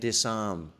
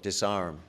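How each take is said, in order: First: It is said in a non-American accent. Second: It is said in an American accent.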